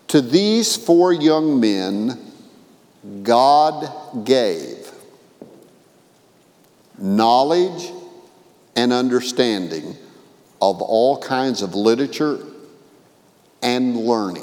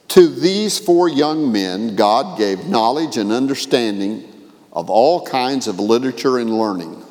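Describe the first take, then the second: First: It is read more slowly, with stops. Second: It is read at a normal pace.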